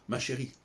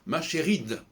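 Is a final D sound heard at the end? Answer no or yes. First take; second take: no; yes. First: The word ends on a vowel, no D sound. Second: The word ends with a pronounced D sound. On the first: The speaker calls it wrong. "et pas ma chérie" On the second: The speaker calls it right. "au féminin, ça devient ma chéride"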